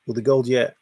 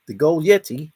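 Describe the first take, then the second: First: Said in the usual way. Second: "yeti" read as the snowman word, stressed on "ye"; gold yeti. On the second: Shown as a demonstration.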